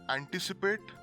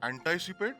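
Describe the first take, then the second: First: The first part is said as in both accents. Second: The first part sounds like the American prefix. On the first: The speaker calls it right. "they must always be pronounced as anti and multi" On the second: The speaker calls it wrong. "Sounds wrong, doesn't it?"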